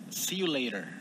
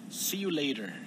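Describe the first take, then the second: First: It is said in an American accent. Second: The same.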